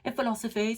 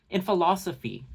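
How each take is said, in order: First: High put-on voice, PHILOSOPHY mangled to end in "fay"; mocking boast. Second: Said in the usual way. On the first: Commentator imitates Rachel bragging about her degree, mocking. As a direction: make a silly brag of "philosophy". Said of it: "talking about how she's educated".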